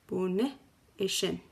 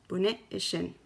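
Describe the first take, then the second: First: It is said slowly with a little pause. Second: It is said at normal speed.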